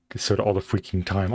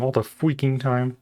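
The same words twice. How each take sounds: First: Said in the usual way. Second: Slow, with freaking punched; drawn out all the freaking time, hitting freaking; stress on freaking. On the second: Shown as a demonstration. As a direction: lean hard on freaking. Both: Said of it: "repeats phrase slower".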